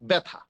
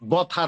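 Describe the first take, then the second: First: The first syllable has an open 'ae' vowel. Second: The first syllable has a plain 'o' vowel. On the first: The speaker calls it right. "এই যে বটাকে একটু একারান্ত করে দিল।" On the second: The speaker calls it wrong. "বথা না।"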